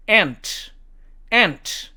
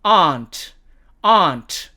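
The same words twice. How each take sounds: First: American "aunt", just like "ant"; American demo, "ant"; American accent. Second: British "aunt" with long ah; British demo of "aunt"; British accent. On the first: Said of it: "미국식 발음으로는". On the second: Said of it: "영국식 발음으로는". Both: Shown as a demonstration.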